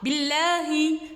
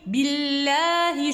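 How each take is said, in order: First: The l sound is short and clipped. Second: The l sound is held and drawn out. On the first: The speaker calls it wrong. "ce n'est pas billahi" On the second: The speaker calls it right. "Je retiens un petit peu la lettre pour laisser couler le son"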